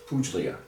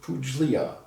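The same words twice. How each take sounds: First: The G sound is silent in the word. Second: The G sound is pronounced in the word. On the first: This is how it is said in Italian. The speaker calls it right. "as they call it. in Italian, I guess you pronounce it. The G is kind of silent" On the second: This is how Americans say it. The speaker calls it wrong. "we Americans we pronounce it Puglia"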